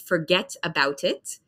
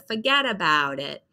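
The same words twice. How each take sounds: First: It is said with a clear T sound. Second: It is said with a D, run together.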